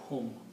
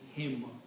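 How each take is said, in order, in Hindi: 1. सर्वनाम 'u' स्वर के साथ बोला जाता है। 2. सर्वनाम 'i' स्वर के साथ बोला जाता है। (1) "not hum" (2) "for ease in pronunciation, we also pronounce that as him"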